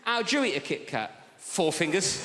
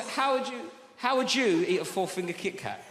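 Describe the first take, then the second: First: "Four fingers" with a rise, as if calling someone by that name; "Four fingers?" said like addressing a person; a comic's slip that makes "Four fingers" sound like a name. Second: "four-finger Kit Kat" said as one plain compound; corrected phrasing. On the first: Retold or imitated. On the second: Shown as a demonstration. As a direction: stress on "eat", not on "four-finger". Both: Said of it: "I said that like it was your name".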